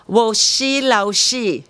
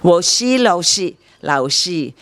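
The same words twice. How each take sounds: First: "Wo shi, lao shi" in Mandarin tones, with an English accent; Mandarin phrase. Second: "Wo shi, lao shi" repeated slowly and carefully; retry "lao shi", lowering on the last take; careful Mandarin retry. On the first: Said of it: "Chinese language does not conjugate". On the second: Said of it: "I'm saying it wrongly". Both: Shown as a demonstration.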